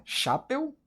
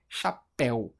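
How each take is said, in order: First: CHAPÉU stressed on the first syllable, CHA-peu; wrong-syllable stress. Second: CHAPÉU split, weight on the final PÉU; last-syllable stress. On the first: Teacher asking how we say it, CHAPÉU stressed as CHA-peu. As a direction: hit CHA in CHAPÉU, let péu go weak. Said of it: "A gente fala chapéu". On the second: Teacher offering the right option, CHAPÉU stressed cha-PÉU. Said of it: "a sílaba tônica é a última". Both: Shown as a demonstration.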